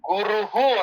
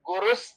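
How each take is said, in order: First: The word ends in a breathy h sound. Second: The word ends in an s sound. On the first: The word is said on its own. "ಗುರುಹು ಅಂತ ವಿಸರ್ಗ ಬೇರೆ" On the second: The word is joined to the next word. "ಒಟ್ಟಿಗೆ ಹೇಳೋದಾದ್ರೆ ಗುರುಸ್ ಚಂದ್ರಾರ್ಕವು ಅಂತ ಹೇಳ್ಬೇಕು"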